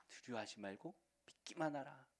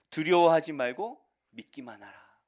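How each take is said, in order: First: Hushed, softer repeat; quiet, tender echo. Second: Loud, ringing declaration; loud proclamation. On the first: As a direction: say it gently to each listener. Repeated softly. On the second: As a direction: proclaim it with full force. Jesus' words proclaimed. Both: Acted.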